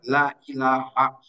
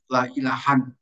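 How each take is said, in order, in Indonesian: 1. Kata terakhir berakhir dengan bunyi -a pendek. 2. Kata terakhir berakhir dengan bunyi -an. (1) "tetapi harus dibaca la ilaha" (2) "yang lain la ilahan"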